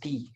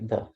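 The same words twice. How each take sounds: First: The word ends in a long 'ee' vowel. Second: The word ends in a short 'uh' vowel. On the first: A vowel sound follows. "before a noun which uh, starts with a vowel sound, you pronounce the as the" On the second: A consonant sound follows. "in front of a noun which uh, starts with a consonant, then you simply say the"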